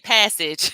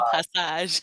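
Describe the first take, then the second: First: It is said with an English pronunciation. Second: It is said with a French pronunciation. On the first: "In a, in English and American, we say passage" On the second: "but it's le passage because it has the French influence"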